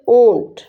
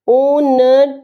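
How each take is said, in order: First: The vowel is nasalized with no separate n. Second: A full n sound is heard before the t. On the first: The speaker calls it right. "नून गुन्ना में तब्दील हो जाएगी, silent हो जाएगा" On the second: The speaker calls it wrong. "ऊंट नहीं पढ़ेंगे"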